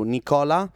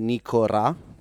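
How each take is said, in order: First: The middle consonant is an L sound. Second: The middle consonant is an R sound. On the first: "they don't say the L" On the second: "They would say Nicora"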